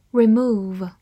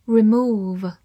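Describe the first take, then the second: No difference in how they are said.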